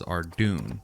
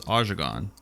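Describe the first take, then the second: First: It is said as two syllables, 'Ardoon'. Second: It is said as three syllables, 'Ajagon'. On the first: This is how long-time players say it. "it's pronounced as Ardoon" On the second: This is how many casual players say it. "I knew a lot of people that pronounce one of the towns ... as Ajagon"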